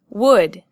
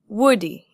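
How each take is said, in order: First: The word ends on a consonant sound. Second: The word ends with an added 'ee' syllable. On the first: The speaker calls it right. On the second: The speaker calls it wrong. "not woody"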